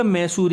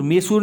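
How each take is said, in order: First: मैसूर as "mai-soor", open ai; correct vowel demo. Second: मैसूर said as "me-soor", plain e; wrong vowel demo. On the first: Teacher naming the place correctly, मैसूर as mai-soor. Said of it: "ये जगह का नाम है". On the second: Teacher showing the mistake, मैसूर as me-soor. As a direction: narrow the first vowel of मैसूर to e. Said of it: "मैसूर नहीं होता". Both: Shown as a demonstration.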